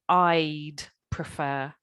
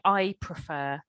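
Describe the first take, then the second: First: A clear D sound is heard before prefer. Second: No D sound is heard before prefer. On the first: The speaker calls it right. "the answer should be I'd prefer" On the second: The speaker calls it wrong. "it sounded like you were saying I prefer"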